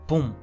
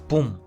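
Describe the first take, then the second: The two takes are said the same way.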